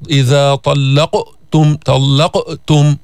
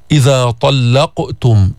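First: طلقتم cut with a glottal stop after the ق; wrong hamza after qaf. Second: طلقتم with a bounced ق, running straight on; slow طلقتم, echo the ق with no pause; qalqala without a break. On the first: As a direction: break طلقتم at the ق with an added hamza. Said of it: "مش معناتها إنه تجيب همزة". (طلقتم بهمزة زائدة بعد القاف) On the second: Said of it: "ما تعمل فاصل، ما في سكتة بالقلقلة". (طلقتم بقلقلة القاف دون سكت) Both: Shown as a demonstration.

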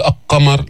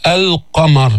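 First: القمر with the L swallowed into a doubled q; lam wrongly merged. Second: القمر, a clear "al-qamar", lam not merged; lam pronounced clearly. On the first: Teacher shows the mistake, القمر merged as aq-qamar. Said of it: "ما بتقول القمر، لا تدغم". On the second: Teacher shows students the moon lam, القمر with clear L. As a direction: say القمر with the L fully sounded. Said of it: "بتقول القمر". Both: Shown as a demonstration.

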